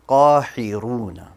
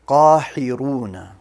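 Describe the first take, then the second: The two takes are said the same way.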